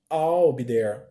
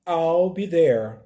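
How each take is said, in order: First: "I'll be there" repeated lower; teacher drilling again; repeated model. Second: Slow "I'll be there" with I'll as "all"; teacher modelling the contraction; pronunciation demo. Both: Shown as a demonstration.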